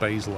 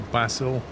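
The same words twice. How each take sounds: First: It is said with an American pronunciation. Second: It is said with a British pronunciation. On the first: "Americans would say basil" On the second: "English would say basil"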